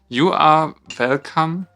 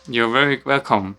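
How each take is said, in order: First: It is said with a stronger German accent. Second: It is said with a milder accent.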